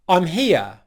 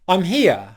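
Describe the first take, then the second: Both takes have the same delivery.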